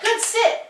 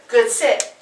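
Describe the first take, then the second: First: It is said with excited, high energy. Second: It is said in a calm, assertive tone. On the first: The speaker calls it wrong. "not good sit, good sit. That's excited energy" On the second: The speaker calls it right. "Just calm, assertive"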